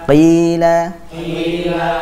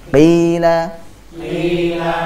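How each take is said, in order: Both takes have the same delivery.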